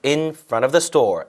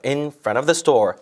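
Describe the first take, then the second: The two takes are said the same way.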